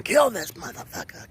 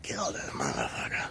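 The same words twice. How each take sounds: First: High urgent shout; urgent yell. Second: Hushed whispered repeat. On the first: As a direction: yell the order. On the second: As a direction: whisper it under breath. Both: Retold or imitated. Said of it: "he's going".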